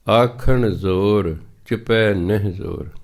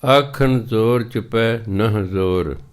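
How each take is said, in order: First: Slow recitation with ਨਹਿ said as nahi, ending on a light i; Hindi reading nahi. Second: Slow recitation with ਨਹ said as nah, clipped with a final h; Persian reading nah. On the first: Preacher shows congregation the Hindi reading of ਨਹਿ, slow chant. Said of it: "ਉਹਦਾ ਉਚਾਰਨ ਹੈ ਨਹਿ". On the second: Preacher shows congregation the Persian reading of ਨਹ, slow chant. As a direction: chant it slowly, giving ਨਹ its Persian sound, nah. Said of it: "ਦੂਜਾ ਉਚਾਰਨ ਫਾਰਸੀ ਦਿੱਤਾ ਨਹ". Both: Shown as a demonstration.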